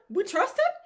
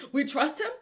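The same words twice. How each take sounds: First: Much higher and louder, pleading; fan crying out in faith. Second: Laughing, hopeful, higher; a laughing fan's rising hope. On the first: Fans before the kick, crying out in high belief. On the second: Fans waiting on the kick, laughing with hope. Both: Retold or imitated.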